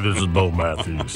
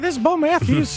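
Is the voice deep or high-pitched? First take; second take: deep; high-pitched. First: The voice is very deep and low. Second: The voice is high and childlike. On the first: This is how he sounded after puberty. "And then all of a sudden puberty hit" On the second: This is how he sounded as a little kid. "what do you think he sounded like as a little kid?"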